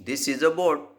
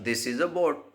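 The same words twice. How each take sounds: The two takes are said the same way.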